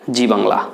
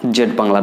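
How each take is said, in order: First: জি with American "zee" reading of Z, low-pitched. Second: জেড with British "zed" reading of Z, low-pitched. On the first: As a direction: say জি for the letter Z in "জি Bangla". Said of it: "American উচ্চারণ অনুযায়ী এই চ্যানেলটির নামকরণ". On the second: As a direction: say জেড for the letter Z in "জেড Bangla". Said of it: "জি উচ্চারণ করা যায়". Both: Shown as a demonstration.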